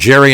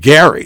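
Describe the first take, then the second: First: The name starts with a soft J sound. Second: The name starts with a hard G sound. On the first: "as in Jerry and the Pacemakers" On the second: "I gather pronounces it Gary"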